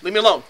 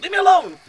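First: Loud "leave me alone"; acted protest. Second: High, loud outburst; acted frantic yell. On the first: Man hiding under covers acting out his fear, loud protest. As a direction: push them away with a raised voice. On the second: Man hiding under covers acting out panic, high frantic yell. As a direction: shriek it to drive them off. Same cry, escalated.

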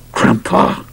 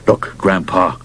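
First: Hissed unvoiced warning; through clenched teeth. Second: Said in the usual way. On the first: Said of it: "spoke through clenched teeth".

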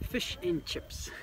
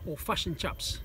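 First: Slow New Zealand "Fish and chips", vowels flattened toward "fush and chups"; Kiwi accent. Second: "fish and chips" said "fush and chups", short central vowels; "fish and chips" with the i turned to a schwa-like u; Kiwi pronunciation. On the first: Local teaching visitor the Kiwi way, in a New Zealand accent. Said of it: "I'm going to say this with a Kiwi accent". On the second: Local showing how Kiwis say it, "fush and chups". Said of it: "as we say". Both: Shown as a demonstration.

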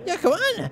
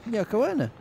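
First: High, sudden exclamation; loud outburst. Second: Said in the usual way. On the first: Real, not acted. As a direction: blurt the name out high and loud. Repeats the name as outburst.

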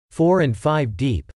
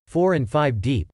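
First: A slow, amazed echo; amazed question. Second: Said in the usual way. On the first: A narrator's reading. Wife echoing the photographer, slowly amazed. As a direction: repeat it slowly in disbelief. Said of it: "Missus Jacobs was amazed".

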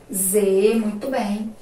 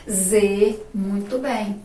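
Both takes have the same delivery.

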